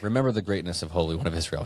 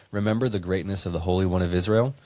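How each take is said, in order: First: "Remember" firm, falling flat at "Israel"; stating it as a demand. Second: "Israel" lifted at the end as if asking; said like a question. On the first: Host correcting himself, reading the verse as a firm demand. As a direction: read "Remember the greatness of Holy One of Israel" as a quick firm command. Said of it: "He's demanding it". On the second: Host reading a verse, first take sounding like a question. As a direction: read "Remember the greatness of the Holy One of Israel" as a question, rising on "Israel". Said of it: "I said that like a question".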